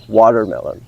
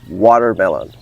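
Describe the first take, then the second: First: It is spoken with an American accent. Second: It is spoken with an American accent.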